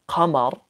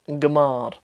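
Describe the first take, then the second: First: It begins with a deep q sound. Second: It begins with a hard g sound. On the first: This is the standard Arabic form. "they don't say um qamar qamarun for the moon" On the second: This is the Libyan dialect form. "They say gmar gmar"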